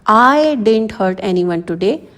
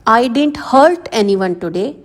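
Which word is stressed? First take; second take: I; hurt. First: The stress falls on the word I. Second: The stress falls on the word hurt. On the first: "इसमें आई पर stress देना है।" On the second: "अब इसमें hurt पर pressure डाला गया है।"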